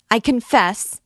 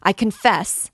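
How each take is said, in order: First: Higher and louder, near a scream; panicked, rising shriek; louder desperate cry. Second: Loud, high plea of surrender; anguished shout; desperate cry. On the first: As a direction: scream the repeat in agony. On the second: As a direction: cry out to stop the pain. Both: A narrator's reading. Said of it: "cried the miserable girl".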